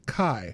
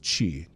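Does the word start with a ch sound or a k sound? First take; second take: k; ch. First: The word starts with a k sound. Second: The word starts with a ch sound. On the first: This is the Greek way of saying it. "in Greek it's kai" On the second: This is the Japanese way of saying it. "in Japanese it's chi"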